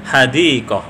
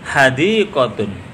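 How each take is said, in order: First: The word stops on a final h sound. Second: The word ends with a t sound plus -un. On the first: The reading pauses on this word. "ketika dibaca waqaf, huruf yang terakhir atau taknya bersuara seperti suara ha" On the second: The reading continues past this word. "Kalau diwasolkan"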